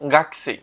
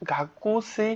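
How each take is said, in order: First: The vowel after the k is dropped. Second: The vowel after the k is fully pronounced. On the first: "আপনারা বলবেন কি গাকসি" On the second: "উচ্চারণটা কিন্তু গাকুসি হয়"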